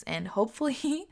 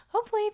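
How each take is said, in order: First: Said in the usual way. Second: High laughing repeat; hopefully laughed out high. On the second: Real, not acted.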